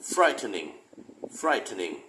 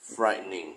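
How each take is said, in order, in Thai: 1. พยางค์ทั้งสามออกเสียงชัดเจน 2. พยางค์กลางถูกตัดทิ้ง เหลือสองพยางค์ (1) "นี่ออกแบบชัดเจนก่อนนะ" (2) "ตัวกลางเนี่ยจะหายไปเลย"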